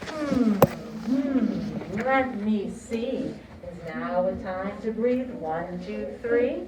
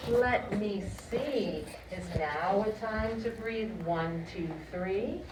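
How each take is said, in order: First: Loud, slow singalong chant; broad singsong kids theatre. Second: Put-on slow, playful singsong for kids; broad singsong kids theatre. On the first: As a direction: lead the class, big and bouncy. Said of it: "Let's say that together". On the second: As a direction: act it out for little ones. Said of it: "This is what we're gonna learn". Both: Shown as a demonstration.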